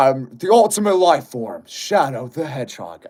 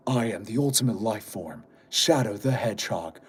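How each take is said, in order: First: Shadow voice. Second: Low, quiet brooding hedgehog voice; Shadow voice. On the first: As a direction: push a bit harder on the Shadow line. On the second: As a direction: go deep and cool like Shadow. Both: Pretend. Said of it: "Make Shadow voice".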